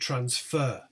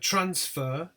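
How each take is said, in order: First: The stress is on the second syllable. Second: The stress is on the first syllable. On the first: It is used as a verb. "the verb is stressed on the second syllable" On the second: It is used as a noun. "the noun, as you can see, is stressed on the first syllable"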